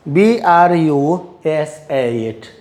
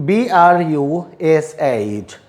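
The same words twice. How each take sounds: The two takes are said the same way.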